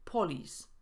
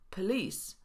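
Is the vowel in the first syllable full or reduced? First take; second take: full; reduced. First: The first vowel is a full o sound. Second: The first vowel is a reduced schwa. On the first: The speaker calls it wrong. "a nie police" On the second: The speaker calls it right. "Ta sama zasada występuje w słowie police"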